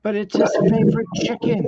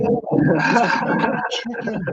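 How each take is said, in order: First: High quoted character voice, louder; high put-on voice. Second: Slow breathy whisper, high. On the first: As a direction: pitch it up and play the character. Quoting the show in a voice. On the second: Retold or imitated. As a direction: drop to a slow hushed whisper. Repeats the quote, whispered.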